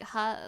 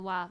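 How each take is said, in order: First: The particle starts with an h sound. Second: The particle starts with a w sound. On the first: "Like ha" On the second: "technically can be pronounced like wa"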